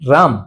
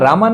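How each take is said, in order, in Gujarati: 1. નામ વ્યંજનથી અંત પામે છે, અંતે કોઈ સ્વર નથી. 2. નામ 'a' સ્વરથી અંત પામે છે. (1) "ભગવાનનું નામ છે રામ" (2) "રામા નામ નથી ભગવાનનું"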